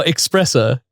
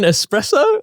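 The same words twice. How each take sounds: First: Espresso begun "eks-", with a K sound; espresso said as "expresso". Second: Espresso begun "es-", no K sound. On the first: Checking the cohost's word, espresso with an X sound. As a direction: say "espresso" as if spelt with an X. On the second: Checking the cohost's word, espresso with a clean S. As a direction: say "espresso" with a plain S before the P. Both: Shown as a demonstration. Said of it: "Are you saying espresso or espresso".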